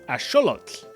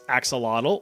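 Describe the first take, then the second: First: It is said with the original Nahuatl pronunciation. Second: It is said with a common English pronunciation. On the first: The speaker calls it right. "it would be correctly pronounced as" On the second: The speaker calls it wrong. "You've probably been saying this as"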